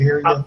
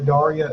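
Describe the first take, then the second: First: The name sounds unlike the cartoon character Daria. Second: The name sounds like the cartoon character Daria. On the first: The speaker calls it right. "it's actually pronounced Daria" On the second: The speaker calls it wrong. "I keep thinking Daria like the M T V show Daria"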